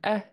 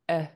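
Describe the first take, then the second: First: The vowel is said on a high pitch. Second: The vowel is said on a low pitch.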